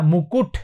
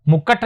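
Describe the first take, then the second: First: मुकुट as "mu-kut", two u sounds; correct pronunciation. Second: मुकुट with an a, "mu-kat"; wrong pronunciation. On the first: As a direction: give the right मुकुट, ending "kut". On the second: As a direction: show the error, मुकुट as "mukkat". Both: Shown as a demonstration. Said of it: "नहीं होता".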